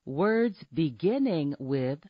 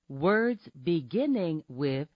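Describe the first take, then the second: No difference in how they are said.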